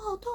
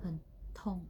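First: It is shouted loudly in pain. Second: It is said quietly and calmly.

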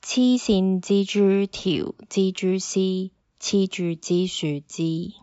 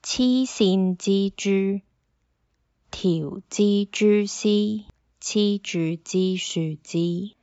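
First: It is said at normal speed. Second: It is said slowly.

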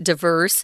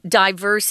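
First: It is said with an American pronunciation. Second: It is said with a British pronunciation.

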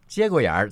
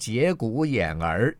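First: It is said with native Beijing pronunciation. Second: It is said syllable by syllable as written. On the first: The speaker calls it right. "是北京话，是满族的话啊" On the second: The speaker calls it wrong. "他会讲成节骨眼儿，因为剧本上面"

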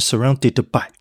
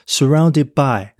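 First: The final d is fully pronounced before by. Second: The final d is dropped before by. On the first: The speaker calls it wrong. "你不会变成surrounded by" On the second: The speaker calls it right. "你只要念后半部就好了，所以变成surrounded by"

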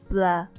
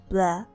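The two takes are said the same way.

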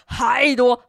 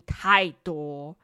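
First: It is said with strong, forceful emphasis. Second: It is said plainly, without extra force.

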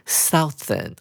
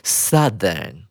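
First: The first vowel sounds like 'ow' in south. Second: The first vowel is a short 'uh' sound. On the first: The speaker calls it wrong. "这个字不能够念成Southern，哦，不能这样子念哦" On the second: The speaker calls it right. "我们要把OU 念成只有U 的音"

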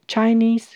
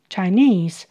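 First: The stress is on the first syllable. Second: The stress is on the second syllable. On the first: "后面有接其他字的时候呢，它的重音会往前移到第一个音节" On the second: "重音在第二音节"

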